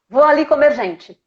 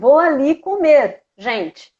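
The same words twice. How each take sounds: First: It is said with no pause before 'gente'. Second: It is said with a pause before 'gente'.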